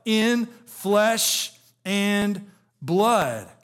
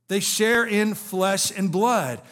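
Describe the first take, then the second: First: Very slow, word by word; drawn out. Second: Said in the usual way. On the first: Acted. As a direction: stretch out each word of flesh and blood. Preacher drawing out scripture phrase.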